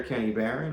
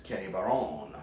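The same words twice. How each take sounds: First: Said in the usual way. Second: French pronunciation. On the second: Shown as a demonstration. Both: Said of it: "as he's known in France".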